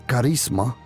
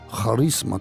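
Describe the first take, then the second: First: The word is pronounced the Spanish way. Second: The word is pronounced the Greek way.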